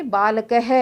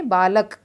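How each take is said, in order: First: बालकः said with a clear breathy ह at the end; visarga sounded. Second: बालक said plainly with no ह at the end. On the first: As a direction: add the ह sound after बालकः. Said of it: "इस बालक को हम क्या पढ़ेंगे". (विसर्ग के साथ बालकः) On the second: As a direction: stop cleanly on the क of बालक. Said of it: "इसको हम क्या पढ़ेंगे". (बिना विसर्ग के बालक) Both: Shown as a demonstration.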